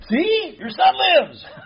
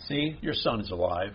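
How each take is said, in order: First: It is said in an arrogant, boastful tone. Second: It is said in a gentle, humble tone.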